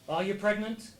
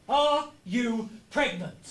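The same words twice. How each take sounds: First: It is said at normal speed. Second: It is said slowly and deliberately.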